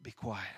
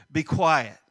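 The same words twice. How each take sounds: First: "Be quiet" said softly and low; quiet reading. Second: Exclaimed command. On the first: Preacher reading "Be quiet" softly to the congregation. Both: Shown as a demonstration. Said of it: "mine shows exclamation points".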